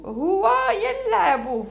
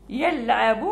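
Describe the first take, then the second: First: Slow, drawn-out. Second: Said in the usual way. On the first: Shown as a demonstration.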